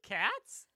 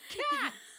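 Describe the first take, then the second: First: It rises like a question. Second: It is exclaimed with a falling tune.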